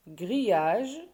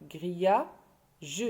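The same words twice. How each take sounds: First: Said in the usual way. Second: "grillage" as grilla, long pause, ge; teacher's broken-up "grillage", grilla... je; split into syllables. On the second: Shown as a demonstration. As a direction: sound out "grillage" with the final "ge" set apart. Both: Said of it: "on a trouvé deux syllabes".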